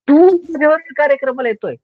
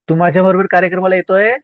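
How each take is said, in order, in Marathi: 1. हे तुच्छतेच्या, तिरस्काराच्या स्वरात म्हटलं जातं. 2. हे खऱ्या, प्रश्नार्थक चौकशीच्या स्वरात म्हटलं जातं. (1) "समोरच्या व्यक्तीचा तिटकार" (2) "आता प्रश्नचिन्ह"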